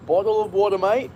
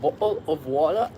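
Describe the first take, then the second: First: Playful Australian accent, pitched a bit higher. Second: Said in the usual way. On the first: Shown as a demonstration. Streamer offers chat water, mock Australian accent. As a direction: ask it like a cheeky Aussie mate. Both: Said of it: "That sounds Australian, eh?".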